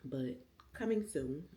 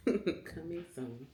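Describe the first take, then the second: First: Said in the usual way. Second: Laughing teaser. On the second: Real, not acted. Laughing drawn-out repeat.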